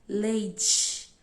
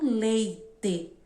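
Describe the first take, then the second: First: The t sounds like a ch sound. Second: The t sounds like a plain t. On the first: "a gente fala leite com som de T C H I" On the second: "e não leite"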